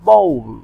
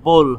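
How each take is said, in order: First: The vowel sounds like 'ow' in cow. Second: The vowel sounds like a plain 'oh'. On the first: The speaker calls it right. "উচ্চারণটা হবে বাউলের মতো" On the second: The speaker calls it wrong. "এখানে কিন্তু বোল হবে না"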